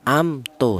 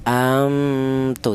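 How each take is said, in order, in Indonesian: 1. Bunyi m diucapkan jelas dengan bibir tertutup. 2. Bunyi m menjadi kabur, berubah menjadi bunyi sengau yang tersembunyi. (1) "memat ini dibaca jelas" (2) "Tidak boleh memat ini dibaca samar atau dibaca ikhfa"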